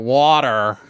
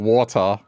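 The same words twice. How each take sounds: First: The final R sound is clearly pronounced. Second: The final R sound is dropped. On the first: "I have to go water" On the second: "instead of saying water"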